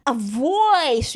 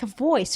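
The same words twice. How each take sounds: First: Drawn-out, swelling "voice"; VTuber voice. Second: Said in the usual way. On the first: Shown as a demonstration. Streamer showing how VTubers have a voice, stretched and showy. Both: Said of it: "they have, like, a voice".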